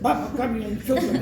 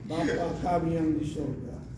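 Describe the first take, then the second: First: The phrase is rushed out quickly. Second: The phrase is said slowly and calmly. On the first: The prayer is hurried without care. The speaker calls it wrong. "kalian main berpacu dalam melodi" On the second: The prayer is said calmly and sincerely. The speaker calls it right.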